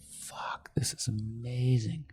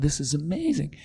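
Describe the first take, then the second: First: Hushed, breathless whisper of amazement; retelling a stunned customer's whispered reaction; awed whisper. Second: Said in the usual way. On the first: Retold or imitated. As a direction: whisper it like you can't believe your eyes. Dude tries the glasses, awed.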